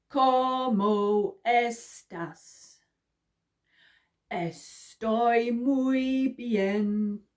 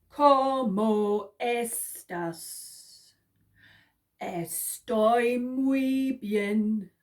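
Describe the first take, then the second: Both takes have the same delivery.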